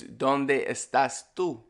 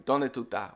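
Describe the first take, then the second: First: Said in the usual way. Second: "estás" shortened to ta; Caribbean clipping of "estás" to ta; ES cut out. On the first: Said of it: "the correct way to say it". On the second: Shown as a demonstration. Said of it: "cut out the E S".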